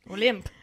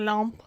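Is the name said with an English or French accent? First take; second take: English; French. First: The name is said with an English accent. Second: The name is said with a French accent. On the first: "if you say it without the accent" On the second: "I feel very French saying it"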